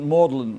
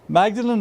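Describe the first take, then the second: First: The name is said the local way. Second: The name is said in a non-local way.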